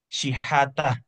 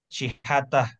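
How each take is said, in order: No difference in how they are said.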